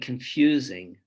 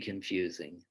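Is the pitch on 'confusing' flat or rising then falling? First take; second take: rising-falling; flat. First: The pitch rises and then falls on the word. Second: The pitch stays flat and low on the word. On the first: "on the first confusing, the voice pitch goes up and then drops" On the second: "confusing stays pretty flat and low in pitch"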